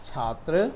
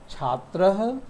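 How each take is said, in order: First: Said in the usual way. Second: छात्रः ending in an audible breathy h; Sanskrit visarga pronunciation. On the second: Shown as a demonstration. Teacher models Sanskrit छात्रः with its final h for students. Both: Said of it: "विसर्ग का उच्चारण हम ह के रूप में करते हैं".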